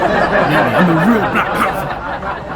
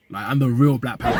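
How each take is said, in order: First: Louder and higher, laughing through it, slowed down. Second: Said in the usual way. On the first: Real, not acted. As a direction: crack up at your own joke. Joke about Ukunda being Wakanda.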